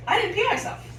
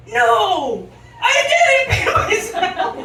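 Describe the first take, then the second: First: High-pitched happy realization; retold moment of proud relief; delighted relief. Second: Loud, high yelled protest; hammed-up indignant yell; vehement denial. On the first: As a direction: lift it high, thrilled with yourself. Waking up dry, relieved. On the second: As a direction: draw it out in an outraged shout. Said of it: "vehemently deny it".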